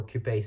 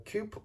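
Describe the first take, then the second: First: Coupe said as "koo-pay"; two-syllable coupé. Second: Coupe said as "koop"; one-syllable coupe. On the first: Reader giving alternative readings of a car term, coupe as "koo-pay". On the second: Reader giving alternative readings of a car term, coupe as "koop". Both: Shown as a demonstration.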